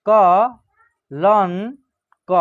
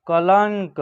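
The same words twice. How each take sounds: First: कलंक very slowly, syllable by syllable, with a rising end; slow dictation of कलंक; broken into syllables. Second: Said in the usual way. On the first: Shown as a demonstration. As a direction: drag कलंक out so the nasal is heard. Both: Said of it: "तोड़ के पढ़िएगा".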